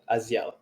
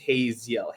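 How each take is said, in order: First: The name starts with no H sound. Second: The name starts with an H sound. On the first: The speaker calls it right. "The H is silent" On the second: The speaker calls it wrong. "with an American accent, it's just it just becomes Haziel"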